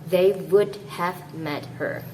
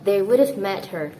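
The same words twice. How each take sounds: First: 'Have' is said in full. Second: 'Have' is contracted with 'would'. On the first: The speaker calls it wrong. "instead of" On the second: The speaker calls it right. "you might want to say this"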